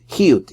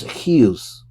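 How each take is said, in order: First: Chiyut with a final t, Israeli Sephardi style; Chiyut, the Israeli way ending in t; Israeli pronunciation. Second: Chiyus said slowly with a final s, Ashkenazi style; chiyus, the Ashkenazi way with s at the end; Ashkenazi pronunciation. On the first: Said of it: "works in a Sephardi more accent, an Israeli accent". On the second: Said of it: "So what he pronounced". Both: Shown as a demonstration.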